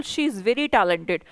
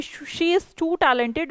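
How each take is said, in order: First: Unhurried, each word laid out for the class; slow correct example. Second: Drawn out, word by word as a warning; slow wrong example. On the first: Teacher slowly models the correct compliment for students. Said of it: "Very use करिए". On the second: Teacher slowly shows students the wrong compliment. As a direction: show the mistake slowly. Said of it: "इसका मतलब आप कह रहे हैं कि". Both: Shown as a demonstration.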